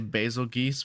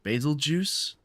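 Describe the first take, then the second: First: The name ends with a 'geese' sound. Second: The name ends with a 'juice' sound. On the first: This is how the speaker used to say it. The speaker calls it wrong. "I used to say basil geese, but apparently that's wrong" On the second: This is how others say it. The speaker calls it right. "That's what Sarah said, so I'm going to trust her"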